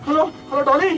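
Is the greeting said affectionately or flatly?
flatly. The greeting sounds flat, without warmth. The speaker calls it wrong. "ऐसे नहीं"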